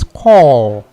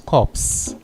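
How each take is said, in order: First: The p and s are silent at the end. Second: The p and s are sounded at the end. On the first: The speaker calls it right. "So the P there is silent" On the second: The speaker calls it wrong. "people normally confuse that word as corpse"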